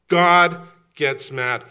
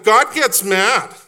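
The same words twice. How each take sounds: First: Slow, settled, pitch back down but still firm; solemn restatement. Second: Loud, high and slow, every word struck; emphatic declaration. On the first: Pastor closing the refrain, slow and grave. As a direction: let it land slowly and heavily. Quiet restatement after climax. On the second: Pastor answering his own question, thundering slow. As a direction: proclaim it like a verdict. Climax of refrain. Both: Acted.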